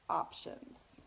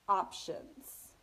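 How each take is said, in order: No difference in how they are said.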